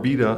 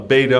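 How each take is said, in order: First: Beta is said with a British pronunciation. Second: Beta is said with an American pronunciation.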